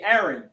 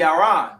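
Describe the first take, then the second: First: The name is said the usual English way. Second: The name is said the Yiddish way. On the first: "because of the English language, we say" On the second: "if you really want to say it in the Yiddish"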